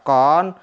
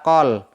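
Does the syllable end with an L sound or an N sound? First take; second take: N sound; L sound. First: The syllable ends with an n sound. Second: The syllable ends with an l sound. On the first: "semestinya dibaca kon" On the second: "maka dibaca qol"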